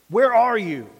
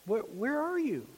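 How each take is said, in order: First: It is said in a stern, severe tone. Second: It is said in a soft, gentle tone. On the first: God is calling out in judgment. "Was it stern?" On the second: God is calling out tenderly. "Was it gentle?"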